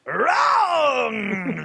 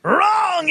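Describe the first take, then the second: First: Wrong! cried out in a strained mock shout; buzzer wrong. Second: High mock-outraged shout of Wrong!; buzzer wrong. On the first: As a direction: bellow Wrong! like a game-show host. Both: Quizmaster rejects wrong answer.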